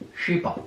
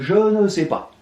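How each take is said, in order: First: The word 'ne' is left out entirely. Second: The word 'ne' is said in full. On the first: This is the worn-down everyday form. "Si on vous laissait faire, vous finiriez par écrire je sais pas" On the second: This is the full original form. "Au lieu de je ne sais pas"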